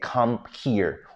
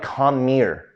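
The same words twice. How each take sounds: First: The two words are said separately and clearly. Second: The two words run together as one. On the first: The speaker calls it wrong. "nobody really says" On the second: The speaker calls it right. "it's sort of like"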